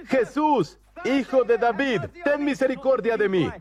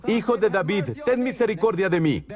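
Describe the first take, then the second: First: Retold cry. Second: Said in the usual way. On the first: Preacher voicing the blind man begging Jesus, retold cry. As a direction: imitate a beggar crying out for mercy. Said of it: "Comenzó a gritar diciendo".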